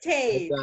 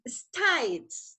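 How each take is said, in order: First: It is said in the class's usual accent. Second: It is said imitating the guest's different accent. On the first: This is how the class learned it. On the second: This is how the guest says it.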